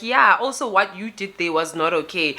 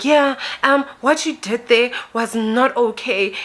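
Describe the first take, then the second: First: Said in the usual way. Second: Higher-pitched complaint; confronting woman. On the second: Retold or imitated. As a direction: imitate her accusing you, pitched up. Confronting woman voiced in retold argument.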